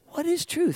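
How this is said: It is asked sincerely, wanting to understand.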